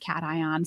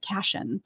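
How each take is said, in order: First: It does not sound like caution. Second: It sounds like caution without the u. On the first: The speaker calls it right. "but it's cation" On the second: The speaker calls it wrong. "it looks like caution without the U. So I was pronouncing it cation"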